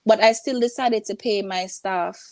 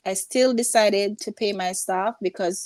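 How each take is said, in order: First: Said in the usual way. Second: "still" leaned on, falling after; stress on still. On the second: Real, not acted. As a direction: press the word "still" to insist.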